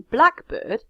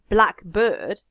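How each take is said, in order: First: The stress falls on the first word. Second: The stress falls on the second word. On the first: A particular species of thrush. "if the stress shifts in English on the compound to the first part of the compound" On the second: "if I put the stress on bird"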